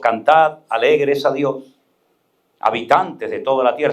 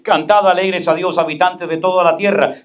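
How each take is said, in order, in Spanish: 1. Se lee a un ritmo notablemente más lento. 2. Se lee a un ritmo más rápido y normal. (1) "puedo leerlo más lento" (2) "Yo puedo decir"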